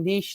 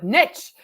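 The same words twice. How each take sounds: First: It is said in a neutral, non-Southern accent. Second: It is said in a broad Southern US accent. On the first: "I kept saying niche" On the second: "with this big Southern accent and goes"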